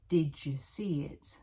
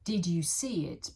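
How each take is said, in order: First: The first two words blend together into one sound. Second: The words are said separately and clearly.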